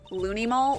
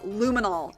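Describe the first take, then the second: First: The n sound comes before the m sound. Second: The m sound comes before the n sound. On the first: The speaker calls it wrong. "did she pronounce it wrong?" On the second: The speaker calls it right. "It's luminol. Get it right"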